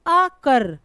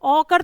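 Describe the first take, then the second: First: अकर with a short "uh", then a strong कर; short first vowel. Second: औकर with a long, open "au" at the start; wrong long first vowel. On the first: Teacher correcting औकर to अकर, short first vowel. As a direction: keep अ brief and hit कर in अकर. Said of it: "छोटा वाला आ है". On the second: Teacher showing what the word is not, औकर with long first vowel. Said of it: "औकर तो नहीं है ना". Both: Shown as a demonstration.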